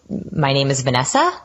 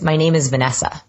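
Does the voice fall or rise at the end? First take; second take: rise; fall. First: The voice rises at the end like a question. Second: The voice goes down slightly at the end. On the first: The speaker sounds unsure of the statement. The speaker calls it wrong. "sounds like a question" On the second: The speaker sounds confident and authoritative. The speaker calls it right. "the authoritative voice tone goes down just slightly at the end"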